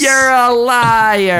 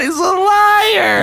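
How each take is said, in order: First: You're punched high and drawn out; stress on you're. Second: High laughing shout, slowed down; mock accusing laugh. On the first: Pretend. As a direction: hit you're, slow and higher, then fall on liar. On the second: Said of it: "You got me".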